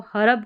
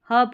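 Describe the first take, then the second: First: हरब in two syllables, "ha-rub"; हरब with a vowel after the R; wrong full R. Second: हर्ब as one syllable, "hub", R dropped; हर्ब said "hawb" without the R; silent R. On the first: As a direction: sound the R fully in हरब. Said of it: "हरब करके नहीं पढ़ेंगे". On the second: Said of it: "हर्ब करके ही पढ़ेंगे". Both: Shown as a demonstration.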